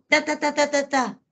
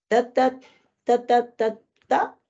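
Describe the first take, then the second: First: The babble sounds scolding and commanding. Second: The babble sounds like a pleading request. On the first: The child is telling off his cousin. "lo regaña al primo" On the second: The child is asking for permission. "Está pidiendo permiso"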